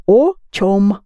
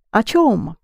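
First: О чём with a full, separate "O"; spelling pronunciation. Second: Said in the usual way. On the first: Shown as a demonstration. Teacher gives the spelling, о чём with a clear round O. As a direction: sound out о чём as written, O, CHOM. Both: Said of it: "You spell о чём".

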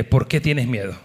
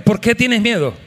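First: Said in the usual way. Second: Louder. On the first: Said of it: "Voltéate al que está al lado tuyo y dile". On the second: Shown as a demonstration. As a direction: repeat "¿Por qué tienes miedo?" louder, with a higher voice. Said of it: "Díselo más fuerte". (dilo más fuerte: "¿Por qué tienes miedo?")

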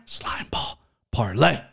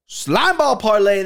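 First: Hushed, voiceless whisper; conspiratorial whisper; whispered reveal. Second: High, drawn-out hype call; raised, stretched-out announcer call; proud announcement. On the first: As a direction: whisper it like a secret pick. Hushed reveal of his pick. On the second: Voiced repeat after whispered reveal. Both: Pretend.

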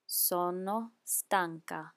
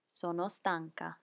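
First: Slowly, syllable by syllable; careful slow Italian; slow demo. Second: Said in the usual way. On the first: Shown as a demonstration. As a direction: model it slowly for the learner.

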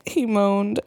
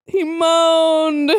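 First: Said in the usual way. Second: High, drawn-out, hammed-up moaning; mock moan. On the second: A narrator's reading. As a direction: moan the narration itself, stretching MOANED. Repeats the tag as a moan.

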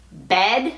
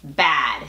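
First: "bed" with a closer eh vowel; "bed", eh as in Spanish E; short E vowel. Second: "bad" with a wide, open a; open A vowel. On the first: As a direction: say "bed" with a plain eh. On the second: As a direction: lower "bad", jaw dropped on the vowel. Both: Shown as a demonstration. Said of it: "la diferencia de pronunciación".

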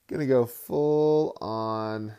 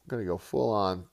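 First: "full on" stretched slow and louder; drawn-out hype. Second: Said in the usual way. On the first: Shown as a demonstration. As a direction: hype up "Gonna go full on" slowly and loud.

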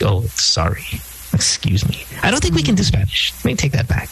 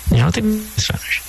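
First: Flustered and embarrassed, take it back; mock sheepish retreat. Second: Said in the usual way. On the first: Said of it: "now we're like". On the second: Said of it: "own comment after quote".

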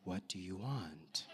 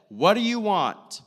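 First: Low, soft question; hushed, low-pitched imitation of a calm question; gentle asking. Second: Loud, high challenge; hammed-up loud, high question; mock demanding. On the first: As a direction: ask it quietly, far lower and softer. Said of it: "It was probably like". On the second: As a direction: fire it out as a loud, exaggerated demand. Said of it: "That's just how I, like, interpret".

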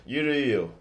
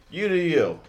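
First: Said in the usual way. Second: Mock sing-song dismissal. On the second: Dismissive shrug-off to viewers.

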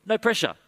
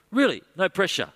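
First: High, easygoing reassurance; breezy no pressure, pitched up; Paul voice. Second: Paul voice. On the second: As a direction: lean on Really, soothing and high. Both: Acted. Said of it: "the Apostle Paul says".

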